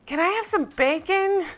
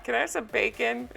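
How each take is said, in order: First: High-pitched imitation of a drunk guest yelling; mock yell. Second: Softly repeated, tickled imitation; amused quiet requote. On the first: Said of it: "So then Dolores yells". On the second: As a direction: quote it softly, just after a laugh. Repeats the quote, amused, after laughing.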